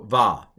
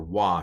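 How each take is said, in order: First: The syllable begins with a v sound. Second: The syllable begins with a w sound. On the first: This is the modern pronunciation. "is how I would pronounce this" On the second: This is the old pronunciation. "if you go with the old pronunciation"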